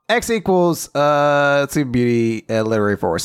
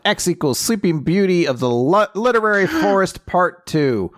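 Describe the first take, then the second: First: Said in the usual way. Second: Gasping, rising with excitement; breathless game-show answer; excited quiz answer. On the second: Real, not acted. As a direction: blurt the answer with a gasp. Quiz answer with a dramatic gasp.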